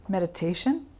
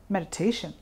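First: Meditation? with a rising, asking tune. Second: Meditation. with a falling, settled tune; answering tune. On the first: Teacher quizzing class, meditation? rising as a question. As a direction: offer meditation as the last quiz option, rising. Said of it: "do you think?". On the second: Teacher answering own quiz, Meditation. falling and settled. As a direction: give the answer with a soft, final fall. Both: Shown as a demonstration.

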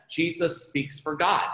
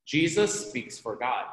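First: Slow, with "God" lifted up at the end; stress on God. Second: Slow, "Jesus" leaned on and the rest settling down; stress on Jesus. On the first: Teacher stressing to students that Jesus speaks for "God". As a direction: land on "God" with a rising lift. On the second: Teacher repeating the line with the weight on "Jesus". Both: Shown as a demonstration. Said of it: "which fits our theme".

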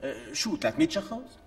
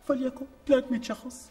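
First: Dismissive shrug. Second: Grand giving-in. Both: Acted.

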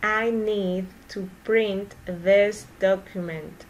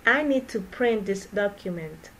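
First: Slow, careful, every word clear; slow model sentence for repeating. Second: Said in the usual way. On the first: Shown as a demonstration. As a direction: say it slowly for learners to copy. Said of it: "teacher repeats sentence slowly for practice". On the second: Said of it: "teacher repeats sentence at normal speed".

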